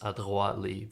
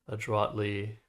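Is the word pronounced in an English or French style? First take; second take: French; English. First: The word is said with a French pronunciation. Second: The word is said with an English pronunciation. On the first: The speaker calls it wrong. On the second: The speaker calls it right.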